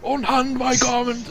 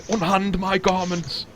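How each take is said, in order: First: Very high, drawn-out outraged cry; acted imperious shriek, stretched out; indignant outcry. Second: High, drawn-out outraged command; acted outrage, imperious and high; indignant demand. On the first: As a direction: push the outrage right up to the top of the voice. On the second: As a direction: cry it out slowly, pitched well up. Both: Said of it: "his eyes just light up with indignation".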